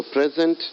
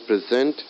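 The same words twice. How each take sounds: First: PREZ-ent, first syllable stressed. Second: Pre-ZENT, second syllable stressed. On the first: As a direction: say "present" as the noun, leaning on PREZ. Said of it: "first syllable of a noun". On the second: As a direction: say "present" as the verb, leaning on ZENT. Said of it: "second syllable of a verb". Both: Shown as a demonstration.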